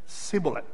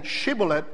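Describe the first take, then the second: First: The word begins with a plain s sound. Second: The word begins with a sh sound. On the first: The speaker cannot make the other sound. The speaker calls it wrong. "they said" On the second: This is how the word was meant to be said. The speaker calls it right. "instead of saying"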